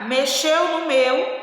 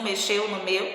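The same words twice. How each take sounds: First: Drawn out, higher and louder; slow emphasis. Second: Said in the usual way. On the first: Shown as a demonstration. Teacher showing pupils the hyphenated phrase, slow and stressed. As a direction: spell it out slowly for the kids. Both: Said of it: "então como é que tem tracinho?".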